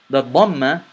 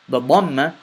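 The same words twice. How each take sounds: Both takes have the same delivery.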